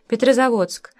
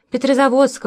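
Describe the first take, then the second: First: Said in the usual way. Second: Suddenly loud, out of a reverie; almost full voice. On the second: A narrator's reading. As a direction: blurt the name out loud. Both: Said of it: "почти в полный голос".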